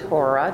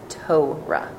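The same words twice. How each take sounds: First: The first syllable sounds like 'tore'. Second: The first syllable sounds like 'tow'. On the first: It marks the speaker as unfamiliar with the tradition. The speaker calls it wrong. "Usually we don't pronounce it Torah. Don't pronounce it that way" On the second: It marks the speaker as familiar with the tradition. The speaker calls it right. "It's Torah, right? Like a tow truck"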